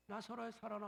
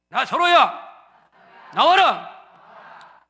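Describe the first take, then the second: First: Softly spoken call to Lazarus; quiet call. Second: Loud, very slow call. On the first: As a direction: murmur it gently. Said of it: "조용하게". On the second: Congregation repeating the call loudly after the pastor. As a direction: draw it out loudly. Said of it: "크게 하세요". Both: Shown as a demonstration.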